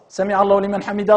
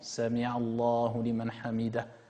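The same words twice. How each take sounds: First: It is said quickly, rushed together. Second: It is said slowly and calmly.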